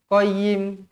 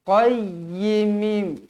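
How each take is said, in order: First: The y sound is short, not doubled. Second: The y sound is doubled and pressed. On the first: The speaker calls it wrong. "Jangan qayyim. Tak nak macam tu" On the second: The speaker calls it right. "Tekankan dia"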